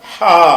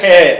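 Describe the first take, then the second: First: The name ends in a long ah vowel. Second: The name ends in an eh vowel. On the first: This is the Arabic name of the letter. The speaker calls it right. "அரபி முறையில் சொல்வதாக இருந்தால் ஹா" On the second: This is the name taught in older times, perhaps from Urdu. The speaker calls it wrong. "நம்ம அப்பம்பாட்டம் காலத்தில் படித்தது ஹே"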